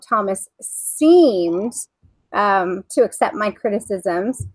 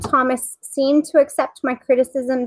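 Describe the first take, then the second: First: It is read in a pointed, sarcastic tone. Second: It is read in a plain, neutral tone. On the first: The acceptance is implied to be doubtful. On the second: The acceptance is reported at face value.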